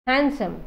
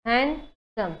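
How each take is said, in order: First: Said in the usual way. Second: handsome split into two separate syllables. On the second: Shown as a demonstration. Teacher showing two syllables, handsome broken in half. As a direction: pause in the middle of handsome. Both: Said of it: "দুটা syllable হ'ব".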